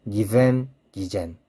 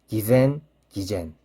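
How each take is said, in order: Both takes have the same delivery.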